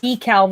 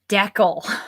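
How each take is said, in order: First: It is said the American way. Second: It is said the Canadian way.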